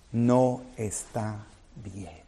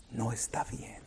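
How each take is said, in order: First: Slow, heavy-hearted no está bien; somber, slowed lament. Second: Near-whispered repeat, much softer; hushed echo. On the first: Preacher to congregation, grieving the broken heart, slow and somber. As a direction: let it sink in slowly and sadly. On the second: Preacher echoing himself to the church, barely above a whisper. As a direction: breathe it again, almost inaudible. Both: Acted.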